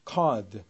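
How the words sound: The R after the vowel is dropped. "card 이렇게 들리는 것이 영국식"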